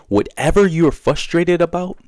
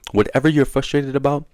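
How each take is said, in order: First: Whatever you're frustrated about, slow and much higher; emphatic first take. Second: Said in the usual way. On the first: Shown as a demonstration. Teaching viewers to find their boundary, slow and much higher. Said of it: "repeats the phrase with more weight". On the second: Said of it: "repeats the phrase".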